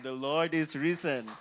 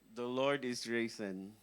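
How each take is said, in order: First: It is said with a smile, cheerfully. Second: It is said in a dramatic, solemn tone.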